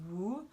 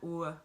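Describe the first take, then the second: First: The sound is closed, like a long oo. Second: The sound is short and more open. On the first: The speaker calls it wrong. "like not not woo" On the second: The speaker calls it right. "but more open"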